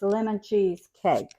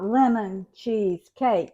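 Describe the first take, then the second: First: The word cheese is grouped with lemon. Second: The word cheese is grouped with cake. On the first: It names a cake made with lemon cheese. The speaker calls it right. "The lemon cheese is together" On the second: It names a lemon-flavored cheesecake. The speaker calls it wrong. "It's not lemon cheese cake"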